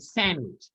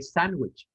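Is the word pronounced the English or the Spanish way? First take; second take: English; Spanish. First: It is pronounced with English sounds, nasal a. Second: It is pronounced with Spanish sounds. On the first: "in English, ... The A, a bit more nasal" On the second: "In Spanish, we say sandwich"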